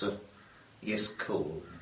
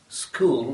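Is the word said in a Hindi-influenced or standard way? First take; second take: Hindi-influenced; standard. First: The consonant cluster is broken up, Hindi-influenced. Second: The consonant cluster is said in standard English.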